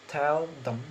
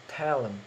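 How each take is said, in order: First: The 'th' of 'them' is clearly pronounced. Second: The 'th' merges into the preceding 'l' sound. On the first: "In normal sounds it is tell them" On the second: "in progressive assimilation becomes a tell them"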